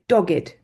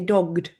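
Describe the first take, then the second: First: The ending is an extra id syllable. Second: The ending is a plain d sound. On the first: The speaker calls it right. "we say dogged for meaning determined" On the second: The speaker calls it wrong. "we don't say dogged"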